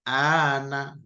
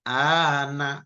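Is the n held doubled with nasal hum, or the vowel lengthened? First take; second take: lengthened; lengthened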